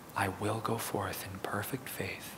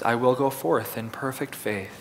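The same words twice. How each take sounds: First: It is spoken in a whisper. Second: It is spoken in a normal full voice. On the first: "Now with a whisper" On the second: "In a regular voice"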